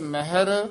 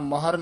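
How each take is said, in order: First: An i vowel follows the h sound. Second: No i vowel follows the h sound. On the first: The speaker calls it right. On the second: The speaker calls it wrong.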